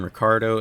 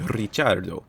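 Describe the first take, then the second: First: The name is said with a simplified English pronunciation. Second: The name is said with an Italian-style pronunciation. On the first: This is how the family says the name. "Daniel's family removed the Italian influence from his name's pronunciation" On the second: This is the name's original form. "it should be Ricciardo"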